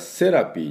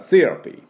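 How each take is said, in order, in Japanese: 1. 普通の S の音で始まります。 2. TH の音で始まります。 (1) "これS の音で出してしまってますんで" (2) "歯と歯の間に舌を挟んで"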